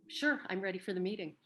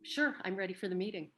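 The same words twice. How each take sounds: First: The tone sounds flat and unenthusiastic. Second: The tone sounds flat and unenthusiastic.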